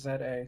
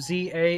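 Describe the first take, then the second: First: The letter Z is said as zed. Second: The letter Z is said as zee. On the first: "some users in the U K slash Commonwealth may pronounce it as" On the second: "Americans call him"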